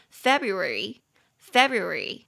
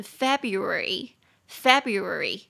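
First: February said slowly, every syllable clear, Fe-bru-a-ry; careful pronunciation. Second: February run together, Feb-ru-ary flowing quicker; quicker pronunciation. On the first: Teacher modelling the word for learners, slow and careful. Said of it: "换我念". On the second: Teacher showing the faster everyday version, more flowing. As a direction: say February at natural speed, joined up. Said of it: "快一点念就会变成". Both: Shown as a demonstration.

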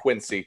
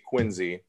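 First: Quincy said with an s, "KWIN-see"; wrong pronunciation. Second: Quincy said with a z, "KWIN-zee"; correct local pronunciation. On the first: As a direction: say Quincy as spelt, with a hissed s sound. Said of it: "Not Quincy". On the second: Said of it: "Not Quincy, Quincy". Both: Shown as a demonstration.

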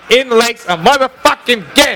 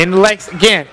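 First: "again" pushed higher with a rising end; emphatic repeat. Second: Said in the usual way. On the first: Real, not acted. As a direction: stress "motherfucking again", lifting "again" up. Repeats phrase with added emphasis.

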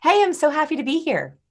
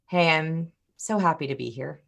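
First: High-pitched, eager, upbeat hello; bubbly, higher-pitched enthusiasm; excited greeting. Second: Subdued and indifferent, energy drained out; unenthused greeting. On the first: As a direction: greet them like you're thrilled to be here. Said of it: "just hear the difference". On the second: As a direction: say it with no excitement at all. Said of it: "but they are radically different". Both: Shown as a demonstration.

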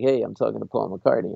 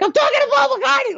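First: Cool, casual and offhand; suave, composed name-drop; smooth and hip. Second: Very high, loud, hysterical squeal; out-of-your-mind shriek, hammed up; inner fangirl scream. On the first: Retold or imitated. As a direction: play it smooth, as if it's no big deal. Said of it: "I'm all smooth and hip". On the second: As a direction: scream it like a starstruck sixties fan. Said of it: "screaming at the top of their lungs".

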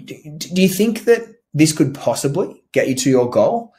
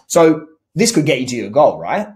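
First: A hesitant, unrehearsed question with an upward lilt; uncertain rising question. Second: A mildly pushy, leading check-in; assumptive question. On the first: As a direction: stammer the start, let "goal?" rise up unsure. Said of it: "Inflect upwards so that it sounds uncertain. Stutter". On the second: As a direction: lead them, taking "right?" as settled. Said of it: "not to sound suggestive or assumptive". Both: Shown as a demonstration.

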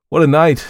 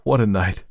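First: Exclaimed louder. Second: Said in the usual way. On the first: Acted. Exclamation repeated with force.

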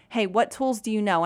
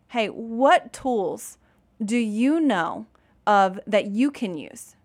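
First: Said in the usual way. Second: Slow, drawn-out gentle question; slow, patient prompt. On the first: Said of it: "I'm asking him". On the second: Retold or imitated. Mom coaxing her upset son to name tools, slow and patient. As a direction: stretch each word out, giving him time. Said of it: "I'll sometimes literally say".

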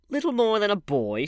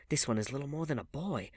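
First: High, loud mocking echo; scornful, raised-voice question; sneering. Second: Said in the usual way. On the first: A narrator's reading. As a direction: throw the words back with scorn. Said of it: "she sneered". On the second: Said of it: "he answered".

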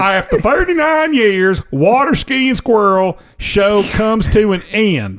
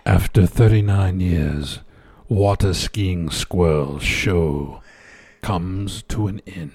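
First: Bad acting. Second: Low, slow mock-sad headline. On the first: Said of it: "I'll deliver it like you would". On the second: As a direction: read it like a eulogy, slowly. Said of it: "It was sad the way I said it".

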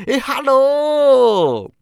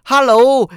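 First: "hello" stretched very slowly, high, then falling; a long delighted hello; drawn-out hello. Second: Short, high, falling hello; quick glad greeting; bright hello. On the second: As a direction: call hello out briskly. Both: A narrator's reading.

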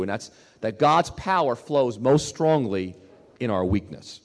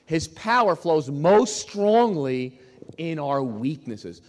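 First: Said in the usual way. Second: Slow, each word weighted, most stressed; slow emphatic stress. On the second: Shown as a demonstration. Preacher hammering the key line to the congregation, slow and emphatic. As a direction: lean hard on "most strongly" and draw it out. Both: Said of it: "You gotta hear this".

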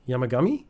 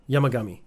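First: Yamagami? tried out with a questioning rise; trying the name. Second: Yamagami. said firmly with a falling close; settling on the name. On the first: Checking a Japanese name's pronunciation, asking rise. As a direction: test the name Yamagami? unsure, rising at the end. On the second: Reading a name, confirming it with a fall. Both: Shown as a demonstration. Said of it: "Yamaga-, Yamagachi".

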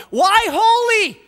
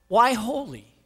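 First: High, loud, slow shouted question; thundering pulpit cry; preacher's shout. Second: Said in the usual way. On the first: Acted. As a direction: shout it to the rafters. Same question shouted in climax.

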